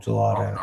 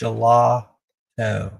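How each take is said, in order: First: The word is pronounced the ordinary way. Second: The ending is pronounced like 'foot toe'. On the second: "like foot toe"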